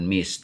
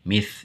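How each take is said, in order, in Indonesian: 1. Diakhiri dengan bunyi s. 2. Diakhiri dengan bunyi th.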